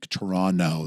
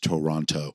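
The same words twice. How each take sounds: First: The second t is dropped. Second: The second t is clearly pronounced. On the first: The speaker is a local. "That's what that's how Canadians pronounce it. The second T is silent" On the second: The speaker is from out of town. "that's how you know somebody's from out of town"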